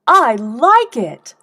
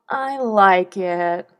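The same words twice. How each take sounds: First: Louder slow delighted line; slow, loud and eager praise; enthusiastic. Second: Very slow bored line; a flat-toned bored reply, slow; unenthusiastic. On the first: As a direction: gush with real pleasure. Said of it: "how enthusiastically". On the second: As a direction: drag it out without interest. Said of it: "how unenthusiastically". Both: Shown as a demonstration.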